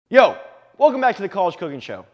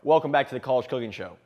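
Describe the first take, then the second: First: It is yelled loudly. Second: It is said more quietly.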